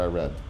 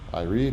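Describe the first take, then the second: First: Read is pronounced as its past tense form. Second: Read is pronounced as its present tense form. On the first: The reading already happened. "or past tense of reading" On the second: The reading happens now or habitually. "depending on how I choose to pronounce it, it's either pre- present"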